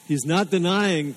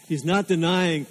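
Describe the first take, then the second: No difference in how they are said.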